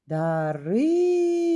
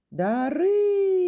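First: Дарина called loudly and slowly; a teacher calling to Дарина. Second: Дарина asked high and rising, drawn out; a teacher asking Дарина in a questioning tone. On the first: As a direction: call out Дарина across the room. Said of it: "Або кличу її". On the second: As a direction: call the name Дарина as a question. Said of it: "запитую". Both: Shown as a demonstration.

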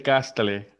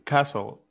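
First: "castle" read letter by letter, Spanish-style, as KAS-ta-le; wrong "castle", with T pronounced and ending in "-le"; mispronounced castle. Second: "castle" with silent T, as KA-sol; correct castle pronunciation. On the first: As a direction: say "castle" as three syllables, sounding the T and final E: "kastale". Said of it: "no se dice castle". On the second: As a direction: say "castle" in two syllables, no T, stress first: "KAS-ol". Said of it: "no, se dice castle". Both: Shown as a demonstration.

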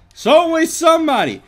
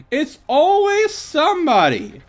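First: High, loud wailing cry; dramatic high shout. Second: High, loud, slow wail; dramatic high shout. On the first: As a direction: wail it out dramatically. Dramatic outburst at attacker. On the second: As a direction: stretch the wail out melodramatically. Repeated dramatic outburst. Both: Pretend.

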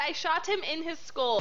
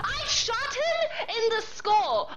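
First: Said in the usual way. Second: Laughing disbelief. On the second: Real, not acted. Disbelief after a missed kill.

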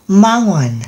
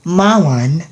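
Both takes have the same delivery.

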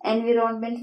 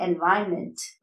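First: "എൻവിറോൺമെന്റ്" read as spelt; common mispronunciation. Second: "എൻവയൺമെന്റ്" as "en-vayn-ment"; no sounded "ron" in "എൻവയൺമെന്റ്"; correct pronunciation. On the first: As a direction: sound "vi-ron" inside "എൻവിറോൺമെന്റ്". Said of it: "wrong pronunciation ആണ്". ("എൻവിറോൺമെന്റ്", വിറോൺ എന്ന് വ്യക്തമായി) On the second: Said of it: "correct pronunciation എന്താണ്". ("എൻവയൺമെന്റ്", വയൺ എന്ന് ചുരുക്കി) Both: Shown as a demonstration.

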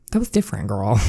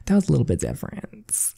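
First: Put-on sassy "That was different, girl". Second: Quieter, knowing "That was a little bit different"; coy murmured "That was a little bit different"; coy and soft. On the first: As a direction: tease her back with a flip of attitude. Teasing friend's remark. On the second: Acted. Repeats the line, coy.

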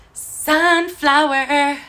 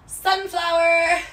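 First: Sunflower sung slow and louder; playful sung Sunflower, stretched out. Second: High, drawn-out cry of delight; light up at the sunflower socks; a spoken Sunflower with a rise of joy; excited. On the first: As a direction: sing the word Sunflower like a little tune. Sings the word back. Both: Real, not acted.

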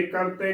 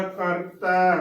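First: ਕਰਤੇ ending in a plain 'e' vowel; ਕਰਤੇ closing on 'ay', not open 'ai'; wrong -e ending. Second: ਕਰਤੈ ending in an open 'ai' vowel; ਕਰਤੈ with a double-lavan 'ai' ending; dulavan ending. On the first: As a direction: say ਕਰਤੇ with a single-lavan 'e' at the end. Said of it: "ਕਰਤੇ ਨਹੀਂ ਬੋਲਣਾ". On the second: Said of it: "ਦੁਲਾਵਾਂ ਤੈ ਦੇ ਨਾਲ ਬੋਲਣਾ". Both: Shown as a demonstration.

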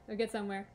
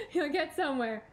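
First: Said in the usual way. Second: Said through a laugh, a bit higher and louder. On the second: Real, not acted. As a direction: laugh at your own pep talk. Repeats the line, laughing.

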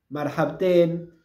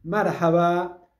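First: Marhabten drawn out slowly, mar-hab-ten clear; slow model reply. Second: Marhaba drawn out slowly, each syllable clear; slow model. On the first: Teacher modeling the reply marhabten slowly. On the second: Teacher modeling the greeting Marhaba slowly. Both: Shown as a demonstration. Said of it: "le pueden decir marhabten".

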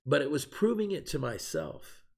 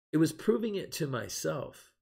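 First: Said in the usual way. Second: "It was proving it to myself" after a long pause, pitch lifted, each word weighed; pause for emphasis. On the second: Shown as a demonstration. Preacher repeating his point to his recovery group, emphatic after a pause. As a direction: let the pause land, then lean into "proving". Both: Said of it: "I'm gonna pause there for emphasis added".

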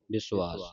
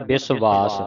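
First: ਵਿਸ਼ਵਾਸ as "bisu-aas", gliding into the long a; traditional pronunciation. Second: ਵਿਸ਼ਵਾਸ as "bis-vaas", with a v; common misreading. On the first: Shown as a demonstration. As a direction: soften the v of ਵਿਸ਼ਵਾਸ into "u-aa". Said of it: "ਇਸ ਦਾ ਉਚਾਰਨ ਹੈ". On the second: Retold or imitated. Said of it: "ਕਈ ਸੰਗਤਾਂ ਪੜ੍ਹਦੇ ਆ".

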